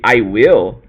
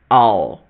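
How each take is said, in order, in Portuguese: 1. Duas palavras completas são ditas claramente. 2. Uma sílaba curta e reduzida é dita. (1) "o I will é o inglês da estrutura" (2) "a pronúncia de I will vai ficar dessa forma aqui"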